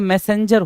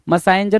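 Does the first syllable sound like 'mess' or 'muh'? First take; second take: mess; muh. First: The first syllable has an open 'mess' vowel. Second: The first syllable has a short 'muh' vowel. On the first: The speaker calls it right. "मैसेंजर होता है" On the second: The speaker calls it wrong. "मसाइंजर नहीं होता है"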